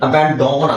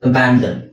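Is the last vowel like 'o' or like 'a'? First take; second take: o; a. First: The last syllable has an 'o' vowel. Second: The last syllable has a short 'a' vowel. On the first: The speaker calls it wrong. "ಅಬ್ಯಾಂಡೋನ್ ಆಗಲ್ಲ" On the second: The speaker calls it right. "ಓನು ಸಹ ಇಲ್ಲಿ ಆ ಅಂತ sound ಆಗುತ್ತೆ"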